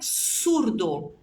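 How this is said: The first sound is a strong s sound.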